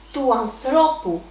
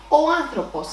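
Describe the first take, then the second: First: Του ανθρώπου drawn out, with the stress on ΘΡΩ; stress second from end. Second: Ο άνθρωπος with the stress on ΑΝ, the first syllable of άνθρωπος; stress third from end. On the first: Teacher showing the possessive to learners, ανθρώπου stressed on ΘΡΩ. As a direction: slowly lean on the middle ΘΡΩ of ανθρώπου. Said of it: "the accent will drop to the second syllable". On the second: Teacher citing the subject form to learners, άνθρωπος stressed on AN. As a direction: hit AN in άνθρωπος. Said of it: "the accent is on the third syllable". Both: Shown as a demonstration.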